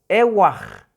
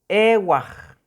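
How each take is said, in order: No difference in how they are said.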